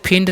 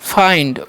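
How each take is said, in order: First: The vowel is a short 'i' sound. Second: The vowel is a long 'eye' sound. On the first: The speaker calls it wrong. "इसे फिंड नहीं" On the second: The speaker calls it right. "इसे पढ़ेंगे हम फाइंड"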